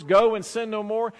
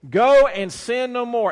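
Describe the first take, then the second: First: Said in the usual way. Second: "Go and sin no more" slow and louder, GO stressed; slow, weighty quote. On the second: Shown as a demonstration. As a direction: draw each word out.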